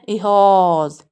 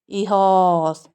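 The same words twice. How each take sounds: Both takes have the same delivery.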